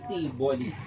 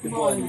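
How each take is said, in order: First: The first syllable, T, is stressed. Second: The first syllable, T, is not stressed. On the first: The speaker calls it wrong. "Parang may accent on T" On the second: The speaker calls it right. "Pero ang tama pala"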